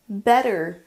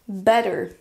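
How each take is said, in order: Both takes have the same delivery.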